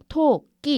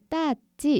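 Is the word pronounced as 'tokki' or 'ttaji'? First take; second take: tokki; ttaji. First: The word is said with the full adult 'tokki'. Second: The word is said as a toddler's simplified 'ttaji'. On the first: The word needs more muscle strength to pronounce. The speaker calls it right. "토끼 이렇게 써야 되더라고요" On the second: A toddler cannot yet pronounce the word. The speaker calls it wrong. "토끼가 발음이 안 돼서 따지 이렇게 발음을 했어요"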